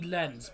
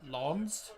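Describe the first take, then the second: First: It is said with an English-style short vowel. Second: It is said with a French-style nasal vowel. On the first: This is how English speakers say the name. "we call it R C lens" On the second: This is how the name is said in France. "in France it's R C lawns"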